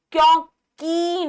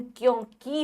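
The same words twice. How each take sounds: First: क्योंकि as a slow, high 'kyon-keee'; slow, raised क्योंकि with a held ee; long final ee. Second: क्योंकि as 'kyon-ki', softer; softer क्योंकि with a brief 'ki'; short final i. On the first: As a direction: stretch the end of क्योंकि wrongly. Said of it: "क्योंकि नहीं". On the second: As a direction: clip the last vowel of क्योंकि. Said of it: "क्योंकि होता है". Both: Shown as a demonstration.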